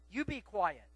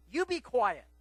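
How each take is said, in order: First: Said in the usual way. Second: A loud, higher mock rebuke; scolding crowd. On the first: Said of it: "what were they saying when they were telling the blind man". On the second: Crowd silencing the blind beggar, loud mock rebuke. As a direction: bark the hush at the blind man. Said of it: "as people were telling him".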